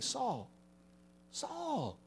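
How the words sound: It is said gently, with tenderness.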